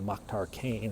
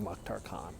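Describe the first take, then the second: First: The name's vowel sounds like 'ay'. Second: The name's vowel sounds like 'ah'. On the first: The speaker calls it wrong. "we have that American A pronunciation... I keep saying Mokhtar Kane" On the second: The speaker calls it right. "pronounced like ah"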